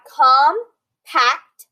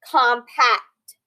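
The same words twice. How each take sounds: First: Compact split slowly, com, pact; very slow compact, syllable by syllable. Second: Said in the usual way. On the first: Shown as a demonstration. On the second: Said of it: "Here we have compact".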